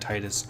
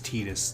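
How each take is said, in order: First: The name does not sound like 'Teedus'. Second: The name sounds like 'Teedus'. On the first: This is the way the speaker grew up saying it. "I grew up saying Titus" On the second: This is the official way to say it. "the official pronunciation is Titus, T E E D U S, is how it should sound"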